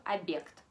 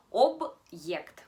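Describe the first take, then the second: First: Demonstrating the mistaken soft object; wrong soft version. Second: Loud model of Object with the hard sign; correct hard-sign word. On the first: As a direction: object said as abekt with the b softened and the o reduced to a. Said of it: "no hubiéramos puesto el signo duro". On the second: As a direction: Object said loudly with a hard b and a clear break before the ye. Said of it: "lo pronunciamos así". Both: Shown as a demonstration.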